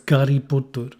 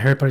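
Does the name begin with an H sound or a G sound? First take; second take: G sound; H sound. First: The name begins with a G sound. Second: The name begins with an H sound. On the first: "it's Gary Potter" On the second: "It's not Harry Potter"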